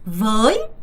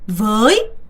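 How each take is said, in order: Both takes have the same delivery.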